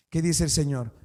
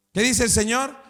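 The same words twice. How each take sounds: First: Said in the usual way. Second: Rousing call to the church. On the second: Acted. Preacher rallying the congregation, rousing louder question. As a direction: lift the question to rally the crowd.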